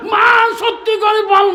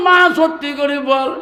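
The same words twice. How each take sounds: First: High, loud shout begging for the truth; shouted plea. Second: Said in the usual way. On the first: Acted. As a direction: demand the truth at full voice. Son begs mother for truth.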